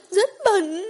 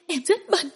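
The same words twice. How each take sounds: First: Screamed. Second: High, shaky self-disgust before the scream; anguished first cry of shame; distraught. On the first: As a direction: scream the words out. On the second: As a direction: say it breaking, higher. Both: Acted. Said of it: "Diệu Tinh hét lên".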